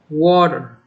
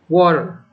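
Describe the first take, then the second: First: It is said in an American accent. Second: It is said in an American accent.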